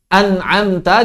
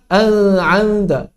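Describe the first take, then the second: First: The n sound is pronounced clearly. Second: The n sound is blurred into another sound. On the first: The speaker calls it right. "tanpa menyamarkannya" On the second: The speaker calls it wrong. "jangan dibaca al-'amta"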